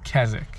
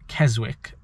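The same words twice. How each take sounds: First: The W sound is left silent in the middle. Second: The W sound is pronounced in the middle. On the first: The speaker calls it right. "You don't pronounce the W, so it's Keswick" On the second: The speaker calls it wrong. "I was saying Keswick"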